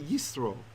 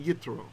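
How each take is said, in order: First: The middle consonant is an s sound. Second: The middle consonant is a t sound. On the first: "When there's no dot, we'd say yisro" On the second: This is the reading of the letter with a dot. "if there were a dot, we'd say yitro"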